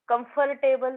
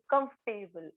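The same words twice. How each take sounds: First: The 'or' syllable is fully pronounced. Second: The 'or' syllable is dropped. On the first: The speaker calls it wrong. "कम्फर्टेबल म्हणतो का आपण?" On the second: The speaker calls it right. "ओ silent आहे"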